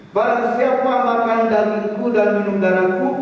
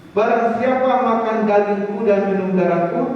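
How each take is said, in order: The two takes are said the same way.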